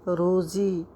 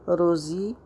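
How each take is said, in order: Both takes have the same delivery.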